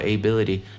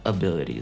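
First: The first vowel is a full 'ay' sound. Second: The first vowel is a weak schwa sound. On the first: The speaker calls it wrong. "первый звук «a», значит «ability». Нет, никакого «ability»" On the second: The speaker calls it right. "это просто «ability». Звук «schwa» является первым звуком"

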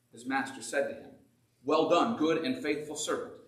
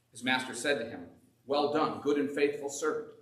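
The two takes are said the same way.

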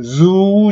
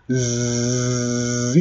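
First: A vowel sound follows the z sound. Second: The z sound is held with no vowel. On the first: The speaker calls it wrong. "ズーじゃないですよ。" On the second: The speaker calls it right. "絶対にこのズーの後に母音はつけませんよ。"

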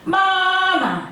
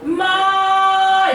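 First: The syllable is short and light with no contour. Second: The pitch stays high and level throughout. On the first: "그냥 살짝 붙이기만 하면 되니까 마 이렇게" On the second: "일성은 반드시 마 이렇게 하셔야지 돼요"

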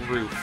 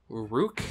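First: The word ends with an f sound. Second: The word ends with a k sound. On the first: The speaker calls it wrong. "Not roof" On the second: The speaker calls it right. "That is not how I'd pronounce that word. Rook or something?"

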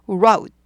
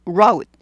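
No difference in how they are said.

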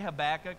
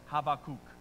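First: The name is pronounced in an English way. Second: The name is pronounced in a Hebrew way. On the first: "I say Habakkuk because that's the first way that I learned it" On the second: "if you want to get super Hebrew and impress your friends"

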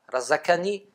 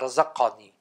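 First: The k sound is a plain, crisp k. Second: The k sound is duller, from deeper back. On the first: The speaker calls it wrong. "Nicht wie ein K" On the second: The speaker calls it right. "das wird etwas dumpfer ausgemacht"

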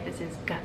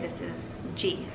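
First: The letter is said as a short sound, like the start of 'go'. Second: The letter is said as its alphabet name, 'gee'. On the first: The child learns the sound the letter makes. The speaker calls it right. "we would say" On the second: The child learns what the letter is called. The speaker calls it wrong. "we wouldn't say"

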